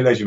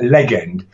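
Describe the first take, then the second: First: Said in the usual way. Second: "legend" split into "leg-end"; mispronounced as leg-end. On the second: Retold or imitated. Joking correction of being called a legend, "legend" said leg-end. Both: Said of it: "More like legend".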